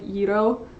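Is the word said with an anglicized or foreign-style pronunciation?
foreign-style. The word is said with a foreign-style pronunciation. "I know it's like euro"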